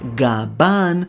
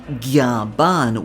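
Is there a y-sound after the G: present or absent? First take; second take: absent; present. First: The name starts with a plain G sound. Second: The name starts with a G plus y-sound. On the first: This is how fans and the official translation write it. "fans and Viz have written it as" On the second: This is how the name is said in Japanese. "in Japanese it's actually Gyaban with a Y"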